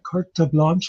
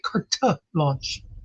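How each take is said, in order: First: Carte is said plainly, without an added vowel. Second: Carte is stressed and ends with an extra vowel. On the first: "Instead of like carte blanche" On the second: "saying it like Kurta. He sort of really emphasized it"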